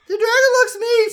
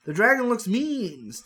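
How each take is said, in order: First: Put-on very high, loud little-girl squeak; squeaky high kid voice. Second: Said in the usual way. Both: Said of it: "Stacy says".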